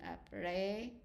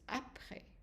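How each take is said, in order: First: The last syllable is stressed and drawn out. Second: The stress is on the first syllable. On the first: The speaker calls it wrong. "the students drag the A at the end" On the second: The speaker calls it right. "but it's après. So the stress is at the beginning of the word"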